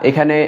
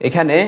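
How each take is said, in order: The two takes are said the same way.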